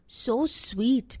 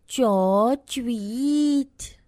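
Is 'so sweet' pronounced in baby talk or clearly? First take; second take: clearly; baby talk. First: The words are pronounced clearly with normal s sounds. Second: The s sounds become ch sounds, like baby talk. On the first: The speaker calls it right. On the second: The speaker calls it wrong.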